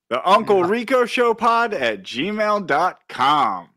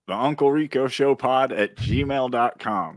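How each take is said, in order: First: It is said loudly, with energy. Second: It is said flatly, without emotion.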